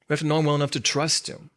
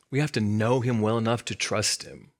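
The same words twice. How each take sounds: First: Quicker repeat with "know" carrying the weight; stress on know, faster. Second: "have" leaned on, measured and firm; stress on have. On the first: Preacher repeats quickly, now hitting "know". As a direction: rush it a little and hit "know". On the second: Preacher stressing "have" to the congregation, firm. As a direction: land the weight on "have". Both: Shown as a demonstration.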